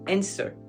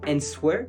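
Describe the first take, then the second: First: No W sound is pronounced in the word. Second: A W sound is pronounced in the word. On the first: The speaker calls it right. "vous enlevez le W, on le prononce pas" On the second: The speaker calls it wrong. "on va pas dire answer"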